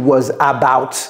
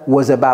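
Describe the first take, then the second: First: The two words are said fully and separately. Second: The two words are linked and reduced together. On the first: The speaker calls it wrong. "J'ai pas dit was about" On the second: The speaker calls it right. "vous voyez comment je vais prononcer ça?"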